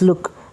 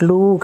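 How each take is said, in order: First: The vowel is a short oo sound. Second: The vowel is a long oo sound. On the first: The speaker calls it right. "it is look ... take short oo sound" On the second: The speaker calls it wrong. "It is not look"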